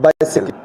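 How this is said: It is said with a British pronunciation. This is how it is said in British English. "British में क्या कैसे कहा जाता है?"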